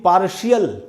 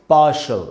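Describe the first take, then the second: First: The ending is said as two syllables, shee-ul. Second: The ending is said as one syllable, shul. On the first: The speaker calls it wrong. "इसको भी पार्शियल नहीं बोलना है" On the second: The speaker calls it right. "इसको हम पढ़ेंगे पार्शल"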